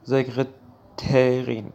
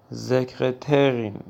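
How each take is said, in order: Both takes have the same delivery.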